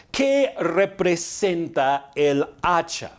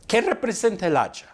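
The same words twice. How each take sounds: First: Each word of "¿Qué representa el hacha?" drawn out slowly; slow rhetorical question, word by word; slow, deliberate question. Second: Said in the usual way. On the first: Real, not acted. Question repeated deliberately for the congregation.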